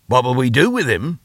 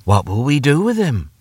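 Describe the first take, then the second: First: Higher, rising echo of the question. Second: Said in the usual way. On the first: Acted. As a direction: throw the question back, rising at the end. Father echoes mother's question.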